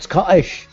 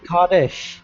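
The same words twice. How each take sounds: First: The middle T sound is dropped. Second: The middle T sound is clearly pronounced. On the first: The speaker calls it wrong. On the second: The speaker calls it right. "the T"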